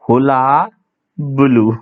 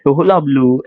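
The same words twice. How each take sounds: First: हुला, pause, then बलू, both endings drawn out; broken-down pronunciation. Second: हुला बलू run together as one word; joined-up pronunciation. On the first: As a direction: split हुला from बलू for learners. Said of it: "ऐसे". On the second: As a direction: model हुला बलू without a break. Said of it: "ऐसे पढ़ेंगे फिर इसको". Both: Shown as a demonstration.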